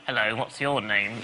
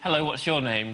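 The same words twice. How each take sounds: First: It is said in an awkward, odd voice. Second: It is said simply, in a normal voice.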